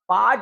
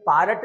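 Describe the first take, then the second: First: The r sound is silent, only a long vowel. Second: The r sound is clearly pronounced. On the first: The speaker calls it right. "इसका उच्चारण र नहीं होकर अ" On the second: The speaker calls it wrong. "इसको पार्ट नहीं बोलते हैं"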